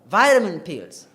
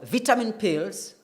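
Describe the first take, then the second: First: It is said with an American accent. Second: It is said with a British accent. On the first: "that is more oriented towards the American way" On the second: "that is indeed uh, the British R P accent"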